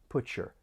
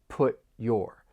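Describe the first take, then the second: First: The t and y blend into ch. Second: The t stops, then a separate y sound. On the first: "The sounds blend together and you get that slight ch sound" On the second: "Somebody may say that stop T, and then you're going to hear that y in your"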